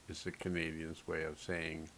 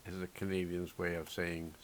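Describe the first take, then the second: No difference in how they are said.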